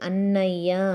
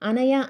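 First: The middle n sound is held long, doubled. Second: The middle n sound is short and single. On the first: The speaker calls it right. "ఒత్తులు ఉన్నాయి కాబట్టి అన్నయ్య" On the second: The speaker calls it wrong. "అనయ్య అంటామా మనము"

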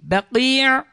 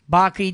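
First: The word ends with a long vowel and throat catch. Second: The word ends plainly on a short vowel. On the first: The speaker calls it right. "doğru telaffuz edin" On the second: The speaker calls it wrong. "Baki değil"

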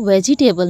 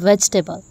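First: Every syllable is said separately and fully. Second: The middle syllables are merged together. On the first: The speaker calls it wrong. "इसको वेजिटेबल नहीं बोलेंगे हम" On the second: The speaker calls it right. "इसको हम इमर्ज करके बोलेंगे वेजिटेबल"

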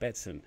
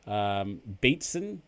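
First: The first syllable rhymes with bet. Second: The first syllable rhymes with beat. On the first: The speaker calls it right. "It's as if you're putting on a bet, son" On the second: The speaker calls it wrong. "I originally mispronounced his name. I think I was saying Beatson, as in like, you know, like the beat"

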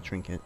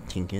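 First: The word is said with an r sound. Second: The word is said without an r sound. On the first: The speaker calls it right. "it's a trinket" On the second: The speaker calls it wrong. "Not a tinket"

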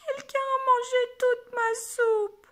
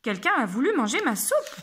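First: It is said in a small crying voice. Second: It is said in an angry voice.

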